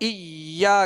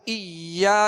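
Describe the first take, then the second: The two takes are said the same way.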